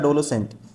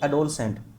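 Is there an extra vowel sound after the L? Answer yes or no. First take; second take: yes; no. First: It is said with an extra vowel after the L. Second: It is said with no vowel after the L. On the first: The speaker calls it wrong. "इसने लिखा हुआ है" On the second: The speaker calls it right. "मेरे मुंह से sound भी ऐसी आई थी"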